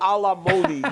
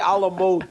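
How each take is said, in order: First: The last word ends with an extra 'ee' sound. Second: The last word ends on a plain 'd' sound. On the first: The speaker calls it wrong. "You don't say a la Modi" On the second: The speaker calls it right. "You say a la mode"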